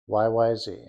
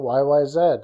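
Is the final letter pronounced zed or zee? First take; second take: zee; zed. First: The last letter is said the American way, zee. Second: The last letter is said the Canadian way, zed.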